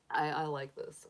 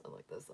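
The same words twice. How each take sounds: First: Said in the usual way. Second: Almost to herself, much softer; near whisper. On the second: Real, not acted. Admiring her new banner, murmuring softly to herself. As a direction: let it fall away to a murmur. Repeats, nearly under her breath.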